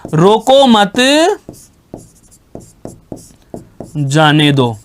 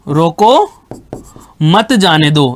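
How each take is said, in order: First: There is a pause right after मत. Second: There is a pause right after रोको.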